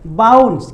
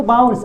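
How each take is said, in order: First: बाउंस said clearly as "bauns", falling; model word bounce. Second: बाउंस again as "bauns", quick and even; model word repeated. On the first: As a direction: say बाउंस with the "au" glide, a touch louder. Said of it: "मैंने क्या लिखा है यहाँ पे?". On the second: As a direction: repeat बाउंस crisply with the au sound. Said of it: "क्या पढ़ेंगे इसको?". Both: Shown as a demonstration.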